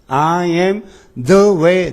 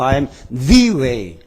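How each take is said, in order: First: The article the is said plainly and unstressed. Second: The article the is said with strong emphasis.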